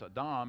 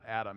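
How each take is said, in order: First: The name is said with Hebrew pronunciation. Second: The name is said with English pronunciation. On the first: The speaker calls it right. "that's how you pronounce it in Hebrew" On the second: The speaker calls it wrong. "It's not Adam"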